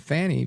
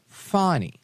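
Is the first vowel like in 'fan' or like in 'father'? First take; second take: fan; father. First: The first vowel sounds like the one in 'fan'. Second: The first vowel sounds like the one in 'father'. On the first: This is how others say the name. The speaker calls it wrong. "everyone is calling her Fanny" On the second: This is how she says her own name. The speaker calls it right. "she goes by the pronunciation Fani, F A H N I"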